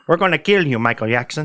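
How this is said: It is said in a put-on foreign accent.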